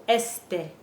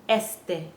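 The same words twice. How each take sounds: Both takes have the same delivery.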